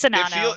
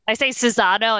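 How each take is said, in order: First: The name is said without any z sound. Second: The name is said with an added z sound. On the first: The speaker calls it right. "It's Shinano" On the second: The speaker calls it wrong. "I just keep adding an extra Z. I say Cinzano, and that's not it"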